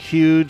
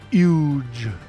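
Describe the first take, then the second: First: The word begins with an H sound. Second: The word begins without any H sound. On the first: "with the H" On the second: "No H, no H"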